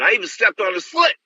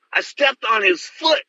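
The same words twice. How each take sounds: First: Said in the usual way. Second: Foot drawn out slow and high; emphatic repeat. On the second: Retold or imitated. Telling listeners he stepped on the fighter's foot, slow emphatic repeat. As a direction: repeat it slowly, leaning on foot. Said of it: "Can you imagine that".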